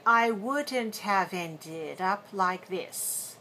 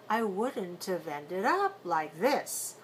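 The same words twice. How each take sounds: First: Wouldn't have is said in full, unreduced. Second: Wouldn't have is reduced and linked together. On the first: "Instead of saying" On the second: "is often reduced to intive"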